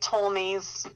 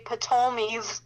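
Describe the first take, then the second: First: The initial P is silent. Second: The initial P is pronounced. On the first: The speaker calls it right. "It's silent P" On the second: The speaker calls it wrong. "it starts P T, so you'd almost want to say"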